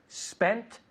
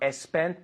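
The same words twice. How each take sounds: First: The word starts directly with the s sound. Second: An extra e vowel comes before the s. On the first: The speaker calls it right. "pero spent studying" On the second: The speaker calls it wrong. "no spent"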